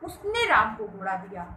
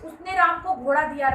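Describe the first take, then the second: First: The stress falls on the word उसने. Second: The stress falls on the word राम. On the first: That person gave it, nobody else. "तो यहाँ पे उसने पर बल दिया गया" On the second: It was given to Ram, nobody else. "राम को दिया, किसी दूसरे को नहीं"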